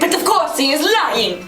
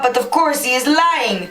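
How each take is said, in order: First: It is said in a put-on Italian accent. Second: It is read in a plain voice.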